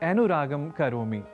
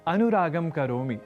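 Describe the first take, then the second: No difference in how they are said.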